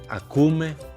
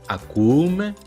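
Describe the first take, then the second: First: The vowels are contracted into one sound. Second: Two vowels are said one after another. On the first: The speaker calls it right. "solemos contraer ... la conjugación correcta" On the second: The speaker calls it wrong. "Estos sonidos de vocales consecutivas no suenan muy agradables"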